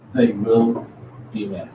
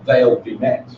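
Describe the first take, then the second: First: They will is said in full, not contracted. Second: They will is contracted to they'll. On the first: "why we're not contracting here" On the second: "They use contractions"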